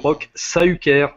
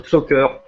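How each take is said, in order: First: The surname's first vowels are split into two syllables. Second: The surname's first vowels merge into one syllable. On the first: The speaker calls it right. "le U tréma ou le I tréma, ça se détache" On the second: The speaker calls it wrong. "Parce que c'est pas"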